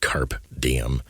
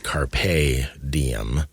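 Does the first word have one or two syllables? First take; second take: one; two. First: The first word ends without a vowel sound. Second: The first word ends with a vowel sound. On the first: The speaker calls it wrong. "not carp diem" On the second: The speaker calls it right. "It's carpe diem"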